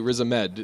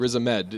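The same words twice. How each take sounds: First: The stress is on the third syllable. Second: The stress is on the third syllable.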